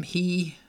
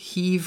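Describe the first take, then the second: First: "hí" ending on a long í; dropped final V. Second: "hív" closed with a clear v; standard final V. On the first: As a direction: leave "hí" open, no v. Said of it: "magánhangzós". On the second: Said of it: "V-tövű igék". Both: Shown as a demonstration.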